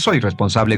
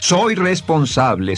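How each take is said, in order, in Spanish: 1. Se dice de forma plana, sin sentimiento. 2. Se dice con calidez, llena de sentimiento. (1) "no dice"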